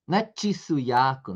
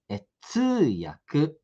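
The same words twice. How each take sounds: First: "tsuyaku" said as "tchisuyaku"; wrong pronunciation. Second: "tsuyaku" drawn out very slowly; correct pronunciation. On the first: Teacher showing the mistaken two-syllable sound. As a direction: stick a "tchi" sound onto the front of "tsuyaku". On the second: Teacher modelling the correct form for students. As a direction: stretch "tsuyaku" out with one single "tsu". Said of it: "É um só". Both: Shown as a demonstration.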